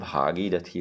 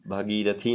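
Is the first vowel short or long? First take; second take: long; short. First: The first vowel is long. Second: The first vowel is short. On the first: The speaker calls it right. "होता है" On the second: The speaker calls it wrong. "नहीं"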